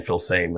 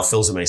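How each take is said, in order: First: Phil Same said like English same; anglicized name. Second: Phil Zame said as zuh-MAY; original name. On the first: His online name, said the easy way. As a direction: Phil Same, one plain syllable. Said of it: "started saying". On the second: His old name that now sounds strange. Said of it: "sounds very strange to me". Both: Shown as a demonstration.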